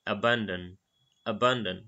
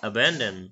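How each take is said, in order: First: "Abandon" with an open ah in the middle, uh-BAHN-dun; British "Abandon", "ban" rhymes with "bun"; British pronunciation. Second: "Abandon" said uh-BAN-dun, the middle vowel as in "ban"; American "Abandon", æ like in cat; American pronunciation. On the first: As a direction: echo the British clip: "Abandon" with a broad a. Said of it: "British প্রোনাউন্সিয়েশনে এটা কিরকম উচ্চারণ করতে হয়". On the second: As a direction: copy the American clip: "Abandon" with æ. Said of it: "American pronunciation". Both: Shown as a demonstration.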